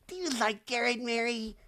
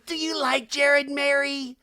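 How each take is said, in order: First: High, hushed nosy question; prying busybody. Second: Loud, high, drawn-out nosy question; prying busybody. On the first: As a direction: repeat it high but held back. Same question repeated softer. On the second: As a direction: imitate a nosy woman calling it out. Acting Heather's prying question, loud take. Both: Retold or imitated.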